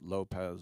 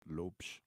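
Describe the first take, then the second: First: The surname is said the common, non-Portuguese way. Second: The surname is said the Portuguese way. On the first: The speaker calls it wrong. "you don't pronounce it Lopez" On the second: The speaker calls it right. "it's Lopes if you really want to get it"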